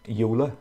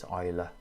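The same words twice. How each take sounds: First: The name is pronounced the English way. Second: The name is pronounced the German way. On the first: "you might be tempted to say Euler" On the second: "it's a German pronunciation of the name, so it's Euler"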